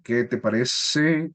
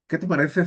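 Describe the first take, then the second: First: The s sounds are sharp and whistling. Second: The s sounds are lisped like a soft th. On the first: "como que pareciera eh, que estuviera silbando, así" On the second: "¿Han escuchado algunas personas que hablan con el Z?"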